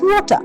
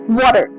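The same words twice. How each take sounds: First: It has a British accent with a crisp t. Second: It has an American accent with a d-like t. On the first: "British pronunciation is water" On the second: "the American pronunciation is water"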